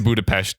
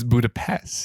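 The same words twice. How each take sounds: First: "Budapest" ending in -pesht; Hungarian-style pronunciation. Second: "Budapest" ending in plain -pest; Anglicized pronunciation. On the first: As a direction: pronounce the s in "Budapest" as sh. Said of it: "This is Budapest". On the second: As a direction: pronounce the s in "Budapest" as s, not sh. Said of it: "So this isn't Budapest". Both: Shown as a demonstration.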